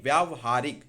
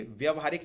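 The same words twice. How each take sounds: First: व्यावहारिक with long vyaa; correct long vowel. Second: व्यवहारिक with short vya; wrong short vowel. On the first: Teacher correcting students, व्यावहारिक with long vyaa. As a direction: punch व्यावहारिक as vyaav-haarik. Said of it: "ये most important है". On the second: Teacher rejecting a form, व्यवहारिक with short vya. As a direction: say व्यवहारिक as vyav-haarik. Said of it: "व्यवहारिक नहीं". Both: Shown as a demonstration.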